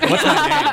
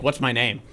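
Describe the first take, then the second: First: What's my name pushed higher and louder; repeating What's my name with more force; louder mock demand. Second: Said in the usual way. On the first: Friend demanding his name, raised pitch and louder. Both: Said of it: "I'd be like".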